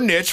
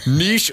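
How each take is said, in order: First: The word is given its American pronunciation. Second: The word is given its French pronunciation. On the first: "for our Central Illinois audience" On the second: "for our French audience"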